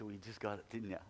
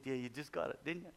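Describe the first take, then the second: First: Laughing tease. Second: Said in the usual way. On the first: Retold or imitated. Pastor teasing the healed woman with a laugh. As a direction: say it through a laugh.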